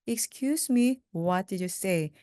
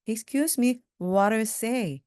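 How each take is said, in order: First: Said in the usual way. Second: Fast. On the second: Shown as a demonstration. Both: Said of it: "이걸 빨리 하면요".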